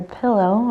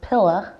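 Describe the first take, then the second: First: It is said in a plain accent. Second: It is said in a Texan accent.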